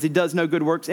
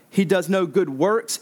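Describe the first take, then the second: First: "good" carries the emphasis; stress on GOOD. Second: "works" carries the emphasis; stress on WORKS. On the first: Preacher defining useless faith for listeners, stress on "good". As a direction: put the weight on "good", ahead of "works". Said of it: "emphasis on good". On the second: Preacher defining dead faith for listeners, stress on "works". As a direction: put the weight on the final word, "works". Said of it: "emphasis on works". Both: Shown as a demonstration.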